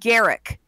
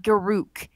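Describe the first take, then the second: First: The name ends with a short 'rick' sound. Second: The name ends with a rounded 'rook' sound. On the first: The speaker calls it right. "It's pronounced Garrick" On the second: The speaker calls it wrong. "not Garuk"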